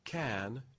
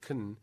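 First: The word is said with its full vowel. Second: The word is said with a weak schwa vowel. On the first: "can, moving to kun" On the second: "moving to kun"

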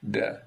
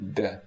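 First: The voice is low and creaky. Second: The voice is tense and stiff. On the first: "Then creaky voice" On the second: "Then stiff voice, I'm trying to increase the tension in my vocalis muscle"

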